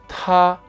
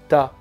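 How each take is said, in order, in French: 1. Le t est relâché avec un fort souffle d'air. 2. Le t est relâché sans souffle d'air. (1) "Quand on le prononce en chinois, ... on sent de l'air" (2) "si on le prononce au français, ... on ne sent pas d'air sur la main"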